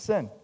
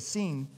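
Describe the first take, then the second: First: The vowel is a short 'i' sound. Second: The vowel is a long 'ee' sound. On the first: "the truth is, it was called the wilderness of Sin" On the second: "I could pronounce the I like an E"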